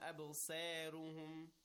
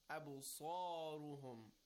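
First: The sad and ra sound light and thin. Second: The sad and ra sound heavy and rounded. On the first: The speaker calls it wrong. "It's not أَبْصَارُهُمْ" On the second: The speaker calls it right. "Rounded mouth with a heavy sound"

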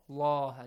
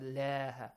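First: The L is heavy, with a full, dark vowel. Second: The L is light, with a thin, clear vowel. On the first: The speaker calls it right. "this heavily" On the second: The speaker calls it wrong. "not lah"

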